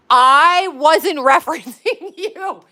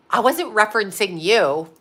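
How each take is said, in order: First: Higher, louder, slow sarcastic mimic with a laugh; mocking repeat. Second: Said in the usual way. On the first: Wife mocking her husband's denial, sarcastic mimic. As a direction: throw his denial back at him, slowly. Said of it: "mocking repeat of his words".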